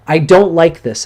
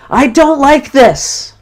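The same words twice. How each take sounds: First: Higher and louder, stress on don't; angry protest. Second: Much higher, louder and slow, don't hammered; angry yell. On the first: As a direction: punch the word don't with mounting anger. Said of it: "is a good one". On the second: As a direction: shout it out as you hit the pillow. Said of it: "And you punch the pillow". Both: Shown as a demonstration.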